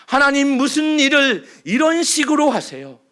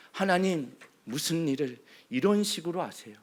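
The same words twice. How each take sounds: First: Louder, pleading cry of protest; loud complaint. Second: Softer, bitter murmur of grievance; quiet complaint. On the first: The congregation's grievance cried aloud to God. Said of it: "원망과 불평 아닌가요?". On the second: Moses' grievance repeated softly, as if inward. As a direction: say it low, almost to yourself. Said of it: "원망과 불평". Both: Acted.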